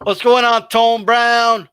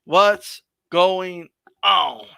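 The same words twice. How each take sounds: First: Louder, upbeat shout-out; calling out. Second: Very slow, stretched words; drawn-out greeting. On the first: Host greeting Tone Brown, calling out. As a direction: hail someone at a normal pace. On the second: Host greeting Tone Brown a second time, drawn-out. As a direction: draw out each word, especially the last. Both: Real, not acted.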